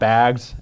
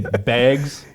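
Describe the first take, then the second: First: Said with the local pronunciation. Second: Said with the speaker's own non-local pronunciation. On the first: The speaker calls it right. "not bags" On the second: The speaker calls it wrong. "I know I say bags"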